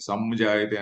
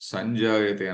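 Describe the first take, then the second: First: The nasal before j sounds like m. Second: The nasal before j sounds like ny. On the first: The speaker calls it wrong. "అనకూడదు" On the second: The speaker calls it right. "అనాలి"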